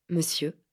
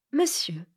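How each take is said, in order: First: Said in the usual way. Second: A grave, measured address. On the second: Acted. Lady in white gravely addresses the boy. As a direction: weigh the word like a verdict. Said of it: "interrogea-t-elle gravement".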